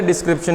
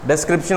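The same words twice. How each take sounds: First: डिस्क्रिप्शन said as "dis-kripshan", first vowel a short i; the wrong डिस्क्रिप्शन with an i; wrong pronunciation. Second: डिस्क्रिप्शन said as "des-kripshan", first vowel an e; the right डिस्क्रिप्शन opening on e; correct pronunciation. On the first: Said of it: "pronunciation गलत तो spelling भी गलत". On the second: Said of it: "pronunciation सही तो spelling सही". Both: Shown as a demonstration.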